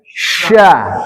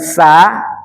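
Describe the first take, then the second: First: It starts with an sh sound. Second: It starts with a plain s sound. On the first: The speaker calls it right. "tapi sya, lidah kita ditaruh ke atas" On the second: The speaker calls it wrong. "Bukan sa"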